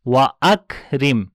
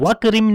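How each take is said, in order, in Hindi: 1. wa और akrim के बीच हमज़ा आता है। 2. स्वर बिना हमज़ा के आपस में मिल जाते हैं। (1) "बल्कि पढ़ेंगे वा अक रिम" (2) "वक रिम नहीं पढ़ेंगे"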